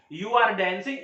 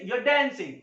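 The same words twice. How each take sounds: First: Said in the usual way. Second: "you are" shrunk to yuh, r silent; stylish contraction. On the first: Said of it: "अगर हमें बोलना है". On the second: Shown as a demonstration. Teacher contrasts it with the full form, "you are" contracted. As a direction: run "you are" together without the R. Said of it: "are silent".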